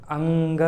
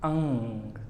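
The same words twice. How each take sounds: First: अंग with a hard ga at the end; wrong way. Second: The right अंग, no ga; correct ng. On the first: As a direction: show the mistaken अंग. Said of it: "ये नहीं बोलेंगे". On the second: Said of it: "आखिरी में गा को नहीं लाएंगे". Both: Shown as a demonstration.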